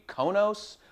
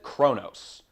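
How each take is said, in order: First: No R sound follows the first consonant. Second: An R sound follows the first consonant. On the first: "Maybe it's just supposed to be Konos" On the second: "everyone pronounces it Kronos. I hear an R in there"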